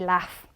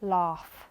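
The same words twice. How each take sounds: First: It is said in a Manchester accent. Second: It is said in a London accent. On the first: "as I am from Manchester, I say laugh" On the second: "people from London, they pronounce it laugh"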